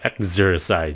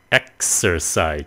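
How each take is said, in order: First: The x is said with a z sound. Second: The x is said with an s sound. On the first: The speaker calls it wrong. "chứ không phải là exercise" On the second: The speaker calls it right. "Exercise chứ không phải là exercise nha. Nó là âm S"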